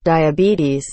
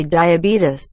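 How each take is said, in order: First: DIABETES ending in a long teez; correct diabetes. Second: DIABETES ending in a short tis; wrong diabetes. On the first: Shown as a demonstration. Correcting how people say it, DIABETES with teez. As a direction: say DIABETES as dye-a-BEE-teez. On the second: Retold or imitated. Complaining how people say it, DIABETES ending tis. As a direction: say DIABETES as dye-a-BEE-tis. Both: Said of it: "I hate when people say diabetes".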